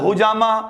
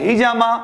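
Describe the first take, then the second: First: The first vowel after h is a u. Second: The first vowel after h is an e. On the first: "H यू बोल रहे हैं" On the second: "H ई बोल रहे हैं"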